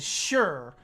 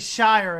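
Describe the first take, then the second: First: It sounds like the word 'sure'. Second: It rhymes with 'fire'. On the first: The speaker calls it right. "We say it as sure" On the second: The speaker calls it wrong. "we don't say Shire at all"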